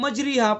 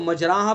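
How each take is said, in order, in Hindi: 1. r के बाद का स्वर लंबा i है। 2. r के बाद का स्वर लंबा a है। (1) "ज़ेर पढ़ेंगे तो मजरीहा बन जाएगा" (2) "ज़बर पढ़ेंगे तो मजराहा बन जाएगा"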